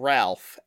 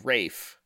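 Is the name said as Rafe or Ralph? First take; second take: Ralph; Rafe. First: The name is said with an audible L. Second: The name rhymes with safe, without L. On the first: "to pronounce the name Ralph" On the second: "as Rafe"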